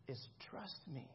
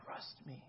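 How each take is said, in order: First: Much softer and slow, pleading "trust me"; soft plea. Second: "Trust me" whispered, no voice; whispered plea. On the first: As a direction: sink low and slow into "trust me". Jesus voiced, inviting trust. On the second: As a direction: breathe the words "Trust me" as a whisper. Jesus voiced, repeated plea. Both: Acted.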